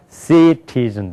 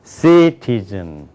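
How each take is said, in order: First: Citizen in evenly weighted Korean syllables; Korean-accented citizen. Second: Citizen with CI long and strong, the rest falling; English first-syllable stress. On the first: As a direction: rattle citizen off in Korean rhythm. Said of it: "citizen이 아니라 뭐예요". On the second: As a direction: slowly punch CI in citizen. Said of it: "영어가 citizen 되는 거예요". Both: Shown as a demonstration.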